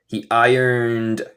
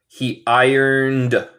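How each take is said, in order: The two takes are said the same way.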